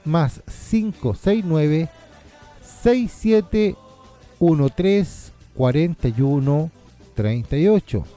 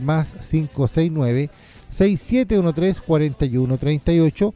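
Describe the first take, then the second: First: The number is said more slowly. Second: The number is said at normal, faster pace.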